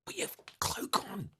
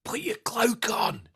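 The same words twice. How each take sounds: First: Breathy high urgent whisper; stage whisper. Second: High, hissed stage whisper; urgent theatrical whisper. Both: Acted. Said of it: "like, stage whisper".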